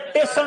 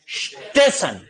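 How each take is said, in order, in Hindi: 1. शब्द 't' से शुरू होता है, 's' छूट जाता है। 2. शब्द सीधे 'st' के गुच्छे से शुरू होता है। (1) "ई और स नहीं बोलेगा, सीधा बोलेगा टेशन" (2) "ये वास्तव में शब्द क्या है? स्टेशन।"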